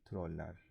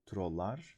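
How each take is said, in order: First: The ending has the front vowel 'e'. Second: The ending has the back vowel 'a'. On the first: The speaker calls it right. "I will say troller because the pronunciation of troll is the other L" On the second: The speaker calls it wrong. "lar would be if I pronounce it like trollar"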